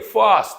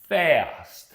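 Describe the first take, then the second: First: The vowel is a broad, open ah sound. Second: The vowel is a flat cat-like sound. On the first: This is how many Russian speakers say it. The speaker calls it wrong. "these words are pronounced by majority of Russian speakers" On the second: This is the American pronunciation. The speaker calls it right. "this is not the ah sound in the American English"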